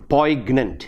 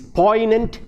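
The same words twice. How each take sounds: First: A G sound is heard in the middle. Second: No G sound is heard in the middle. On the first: The speaker calls it wrong. "not poignant" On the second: The speaker calls it right. "It is poignant"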